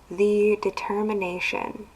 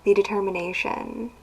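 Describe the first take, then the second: First: It is said at a slower pace. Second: It is said at a quicker pace.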